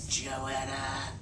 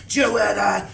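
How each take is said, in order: First: Low, soft menacing hiss; an angry mother hissing the name; hissing like a snake. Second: Stern call. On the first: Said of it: "hissing like a snake". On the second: Mother angrily repeats order. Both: A narrator's reading.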